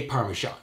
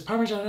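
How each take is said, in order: First: "Parmesan" in everyday American English; American pronunciation. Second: "Parmesan" mimicked with an Italian accent; mock Italian pronunciation of "Parmesan". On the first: Shown as a demonstration. Correcting a California-raised cook, American "Parmesan". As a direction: say "Parmesan" with no Italian flourish. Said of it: "you fucking raised in California". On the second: Mocking a TV cook's pronunciation, Italian accent on "Parmesan". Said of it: "does it whenever she says".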